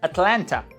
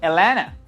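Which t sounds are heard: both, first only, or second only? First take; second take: both; second only. First: Both t sounds are pronounced. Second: The first t sound is dropped. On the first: "Some people pronounce this city like Atlanta. So in that case you have T, L, N, T" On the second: "those people will not even translate number one here because they don't pronounce it"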